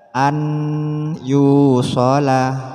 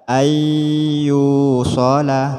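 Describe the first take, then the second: First: A clear separate n is heard before the y. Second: The n merges into the y with nasal hum. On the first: The speaker calls it wrong. "bukan dibaca" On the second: The speaker calls it right. "tapi dibaca"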